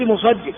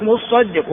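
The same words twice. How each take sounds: First: مصدق with a single light ص, musaddiq; light sad. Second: مصدق with a doubled, held ص, mussaddiq; doubled sad. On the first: Teacher explaining the collector reading, مصدق with single light ص. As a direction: say مصدق with the ص short and undoubled. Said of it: "بتخفيف الصاد". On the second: Teacher explaining the majority reading as owner, مصدق with doubled ص. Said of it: "فالأكثر على أنه بالتشديد". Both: Shown as a demonstration.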